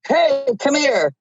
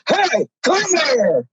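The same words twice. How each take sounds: First: It is said in a normal voice. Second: It is bellowed loudly and deeply.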